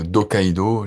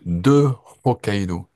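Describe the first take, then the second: First: 'De' loses its vowel and links to Hokkaido. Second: 'De' is said in full before an aspirated H. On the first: The speaker calls it wrong. "on prononce pas le H et on fait euh, des apostrophes" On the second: The speaker calls it right. "en aspirant le H"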